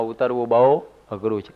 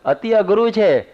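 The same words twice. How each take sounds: First: Said in the usual way. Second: અઘરું hit higher and louder, slow and drawn out; અતિ અઘરું said slow with a high loud peak on અઘરું; stress on અઘરું. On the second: Shown as a demonstration. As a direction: lean hard on અઘરું, slowly.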